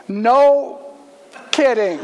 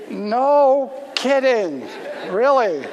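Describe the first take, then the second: First: Loud, high burst of disbelief; loud astonished exclamation; stunned no kidding. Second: Slow, drawn-out laughing echo of no kidding; amused slow laughing reply. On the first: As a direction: blurt it out, floored by the news. Guy stunned the teller's a pastor. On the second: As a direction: toss it back laughing at his shock. Pastor echoes him, laughing. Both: Retold or imitated.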